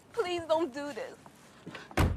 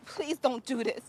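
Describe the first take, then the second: First: Very slow tearful plea; crying. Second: Tearful begging; crying. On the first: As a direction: drag it out through tears. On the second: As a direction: beg through tears. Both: Acted. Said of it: "Why are you crying".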